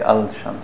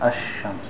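First: An L sound is pronounced before the SH. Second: The L is silent, blending into a doubled SH. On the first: The speaker calls it wrong. "you don't say al-shams" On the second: The speaker calls it right. "You say ash-shams"

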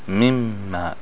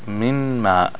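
First: The n merges fully into the following m. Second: The n is pronounced separately before the m. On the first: "Because mean is from Yarmanun" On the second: "What happens to it?"

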